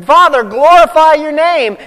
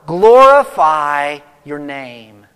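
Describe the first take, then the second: First: Higher and louder, ringing out; fervent cry. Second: Slow, hushed and reverent; solemn prayer. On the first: Preacher acting out Jesus crying to his Father, loud. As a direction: cry it out to heaven with full fervour. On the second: Preacher voicing Jesus praying, slow and reverent. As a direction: lay the words down gently like a prayer. Jesus' bold proclamation, quoted slowly. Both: Retold or imitated.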